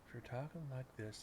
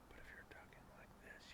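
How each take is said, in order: First: It is spoken quietly in a low voice. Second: It is whispered without full voice.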